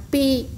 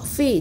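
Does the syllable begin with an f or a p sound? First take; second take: p; f. First: The syllable begins with a p sound. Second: The syllable begins with an f sound. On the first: The speaker calls it wrong. "jangan pi" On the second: The speaker calls it right.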